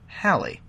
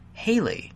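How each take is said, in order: First: The name rhymes with the word valley. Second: The name sounds like the rocker's name Haley. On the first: The speaker calls it right. "rather than rhyming with Valley, as in [name]" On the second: The speaker calls it wrong. "you mispronounce his name as [name], as in the 1950s rocker [name]"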